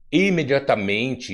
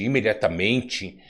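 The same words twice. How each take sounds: First: "imediatamente" slow, raised stress on opening I; first-syllable stress. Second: Said in the usual way. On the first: Shown as a demonstration. Recalling the richest man in the Bible, first-syllable stress. Echoes the criticised habit, then restates.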